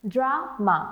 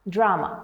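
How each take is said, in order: First: "drama" as dra, break, ma; broken into syllables. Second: Said in the usual way. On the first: Shown as a demonstration. Teacher showing learners the break, "drama" split in two. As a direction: say "drama" in two separate beats. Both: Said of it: "there is a break in between".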